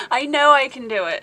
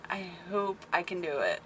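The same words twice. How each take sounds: First: KNOW pushed higher and louder; self-assuring emphasis. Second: Softer, small-voiced self-doubt; unsure hoping. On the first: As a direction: hit the word know with conviction, raised and loud. Correcting her doubt with conviction. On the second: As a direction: say it quietly, hoping you can manage. Doubt, then self-correction. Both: Real, not acted.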